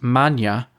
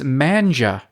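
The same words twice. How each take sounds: First: The name is given its native pronunciation. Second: The name is given an anglicized pronunciation. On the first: The speaker calls it right. "read her clarification of the pronunciation" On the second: The speaker calls it wrong. "I mispronounced it"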